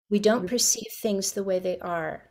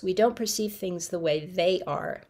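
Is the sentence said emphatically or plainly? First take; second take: plainly; emphatically. First: The sentence is said plainly, without added emphasis. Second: The sentence is said with strong added emphasis.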